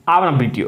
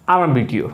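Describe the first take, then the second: No difference in how they are said.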